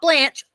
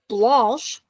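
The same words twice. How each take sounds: First: The vowel is a plain 'ah' sound. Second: The vowel is a rounded 'aw' sound. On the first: The speaker calls it wrong. "not Blanche" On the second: The speaker calls it right. "There's a U in there"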